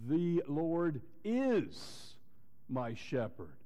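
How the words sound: The stress falls on the word "is". It is a present reality and truth. "he is. It's a reality"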